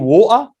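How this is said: It is said in a Birmingham accent. "someone from Birmingham say water"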